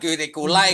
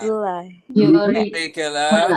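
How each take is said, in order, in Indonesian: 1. Kata ini berakhir dengan bunyi 'eye'. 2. Kata ini berakhir dengan bunyi 'ah'. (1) "bukan curriculai guys, kan bukan huruf I di sini" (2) "curricula, curricula, biasa"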